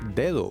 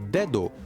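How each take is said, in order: First: The second d is much softer. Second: The second d is a hard stop. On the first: The speaker calls it right. "con la segunda D mucho más suave" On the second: The speaker calls it wrong. "No lo pronunciamos dedo"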